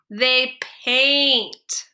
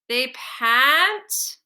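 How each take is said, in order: First: The vowel is said as a long a. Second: The vowel is said as a short a. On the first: The speaker calls it right. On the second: The speaker calls it wrong.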